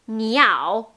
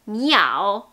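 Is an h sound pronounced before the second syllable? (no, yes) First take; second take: no; no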